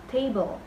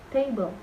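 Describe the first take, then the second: Both takes have the same delivery.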